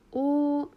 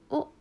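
First: The syllable is high, level and held long. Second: The syllable is high but cut very short. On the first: "一声だったらおになりますが" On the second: "形声だったらおです"

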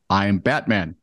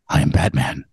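First: It is read in a plain voice. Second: It is said in a put-on Batman voice.

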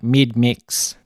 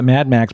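First: It is said with an Australian accent. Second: It is said with an American accent. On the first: "but they call it Mid Mix" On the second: "we call it Mad Max"

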